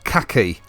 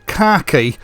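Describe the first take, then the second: First: Khaki is said in the American way. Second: Khaki is said in the British way. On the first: The speaker calls it wrong. "and not khaki" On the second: The speaker calls it right. "it's pronounced khaki"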